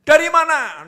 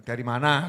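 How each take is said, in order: First: "Dari mana?" asked much higher and louder, sharp. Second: Said in the usual way. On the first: Shown as a demonstration. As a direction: demand "Dari mana?" in a high, loud tone. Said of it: "Nadanya tinggi". ("Dari mana?" dengan nada tinggi dan keras) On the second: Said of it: "gitu ya".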